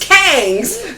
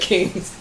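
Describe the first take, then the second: First: The vowel is an open 'a' sound. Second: The vowel is a short 'i' sound. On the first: "We just say kangs" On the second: "instead of kings"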